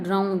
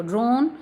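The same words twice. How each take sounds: First: ड्राउन with an "au" vowel, as in "down"; wrong pronunciation. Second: ड्रोन with a long "o" vowel; corrected pronunciation. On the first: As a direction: say ड्राउन with a gliding "ow" sound. (ड्राउन में "आउ" वाला ग़लत उच्चारण) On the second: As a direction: say ड्रोन with "o", not "ow". (ड्रोन में लंबा "ओ", सही उच्चारण) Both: Shown as a demonstration. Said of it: "ड्राउन नहीं बोलेंगे इसको".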